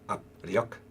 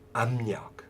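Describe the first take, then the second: First: The p sound is kept before the r. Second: The p sound changes to a nasal m. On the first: The speaker calls it wrong. "you wouldn't pronounce that" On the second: The speaker calls it right. "You'd say"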